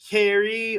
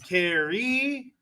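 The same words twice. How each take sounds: First: The stress is on the first syllable. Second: The stress is on the last syllable.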